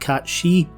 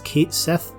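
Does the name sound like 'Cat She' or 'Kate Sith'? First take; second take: Cat She; Kate Sith. First: The name is said like 'Cat She'. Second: The name is said like 'Kate Sith'. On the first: It follows the word's original language. "rather than the etymologically correct Cat She" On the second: It follows how the game itself says it. "I'll be pronouncing the robotic feline's name as Kate Sith"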